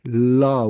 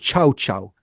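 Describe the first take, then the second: First: The name begins with an l sound. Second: The name begins with a ch sound. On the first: "it's written L L A O" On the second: "I think it's pronounced Chow Chow"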